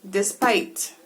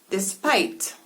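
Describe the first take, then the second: The two takes are said the same way.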